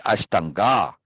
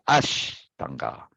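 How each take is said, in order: First: "Ashtanga" with the weight on the last syllable, GA; ash-tan-GA, end stressed; shifted syllable stress. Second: "Ashtanga" with a long, strong ASH; ASH-tanga, front stressed; first-syllable stress. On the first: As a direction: lean on the final "ga" of Ashtanga. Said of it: "pay attention to the emphasis on the syllable". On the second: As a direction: hit ASH, then let "tanga" drop. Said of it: "emphasis on the syllable". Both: Shown as a demonstration.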